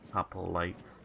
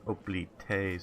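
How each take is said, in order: First: The word begins with an audible H sound. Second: The word begins directly with a vowel sound. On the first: "instead of hop hoplites" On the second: "sort of dropping the H and doing oplites"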